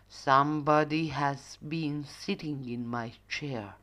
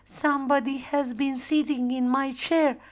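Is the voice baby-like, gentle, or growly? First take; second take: growly; baby-like. First: The voice is loud, deep and growly. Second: The voice is small, high and babyish. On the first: The father bear is speaking. "roared with a growly voice" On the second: The little bear is speaking. "say in small, baby voice"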